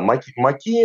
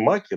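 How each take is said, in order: First: The stress is on the last syllable. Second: The stress is on the first syllable. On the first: It names dense French undergrowth. The speaker calls it right. "а вот на последний слог" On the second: It names a different thing, poppies. The speaker calls it wrong. "надо ударить не «маки»"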